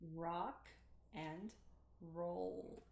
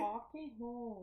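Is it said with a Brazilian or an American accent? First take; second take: American; Brazilian. First: It is said with an American English accent. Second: It is said with a Brazilian Portuguese accent.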